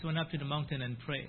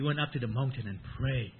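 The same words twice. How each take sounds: First: The voice stays level with no emphasis. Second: The voice varies in pitch and loudness. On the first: No word seems more important than another. The speaker calls it wrong. "We cannot say" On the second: The key words stand out to the listener. The speaker calls it right. "You see, right?"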